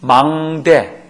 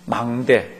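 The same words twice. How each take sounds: First: "망대" drawn out very slowly, each syllable held; slow stressed word. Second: Said in the usual way. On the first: Shown as a demonstration. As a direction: spell out "망대" slowly so the meaning sinks in. (교인들에게 뜻을 새기듯 "망대"를 아주 천천히) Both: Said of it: "미스바가 무슨 뜻이에요?".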